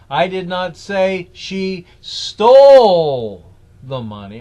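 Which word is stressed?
stole. The stress is on "stole".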